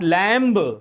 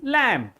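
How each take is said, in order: First: The final B sound is pronounced. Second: The final B sound is silent. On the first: The speaker calls it wrong. "This is not lamb" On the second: The speaker calls it right. "B is silent"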